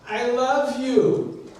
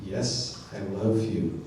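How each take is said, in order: First: Higher, drawn-out insistent protest; agitated Simon Peter. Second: Low, soft grudging answer; reluctant. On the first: Peter answering Jesus's repeated question, agitated insistence. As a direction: insist on it slowly, pitched up, mildly exasperated. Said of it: "getting more agitated". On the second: Sleepyhead in bed answering that voice, mock reluctant. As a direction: give in quietly, pitched well down. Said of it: "reluctantly you respond". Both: Acted.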